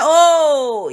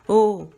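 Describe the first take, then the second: First: It is said drawn out and pleasant. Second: It is said short and flat. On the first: The call is acknowledged and the responder is coming soon. "when you draw draw it out like that" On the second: The responder does not welcome the call. "it's very dull"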